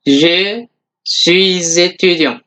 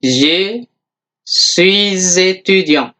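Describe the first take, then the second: No difference in how they are said.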